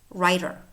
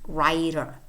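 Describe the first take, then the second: Both takes have the same delivery.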